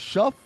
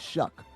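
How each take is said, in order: First: The name ends with an f sound. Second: The name ends with a k sound. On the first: "is it Shuff or Show?" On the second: "You say it Shuck"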